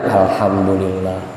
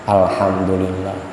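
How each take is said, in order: The two takes are said the same way.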